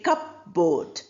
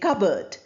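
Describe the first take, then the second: First: The P sound is pronounced in the middle. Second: The P sound is silent in the middle. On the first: The speaker calls it wrong. "We don't say cupboard" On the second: The speaker calls it right. "we say cupboard"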